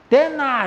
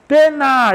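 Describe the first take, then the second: First: High, loud challenging yell at a bully; showing courage with a shout. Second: Very high, very loud defiant yell; full bold shout. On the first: Teacher acting out facing a bully, a weaker challenging shout. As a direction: bark it out to show your nerve, sounding a bit unsure. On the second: Teacher acting out facing a stronger bully, a full bold shout. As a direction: blast it out with all your courage. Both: Shown as a demonstration. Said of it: "이렇게 해요?".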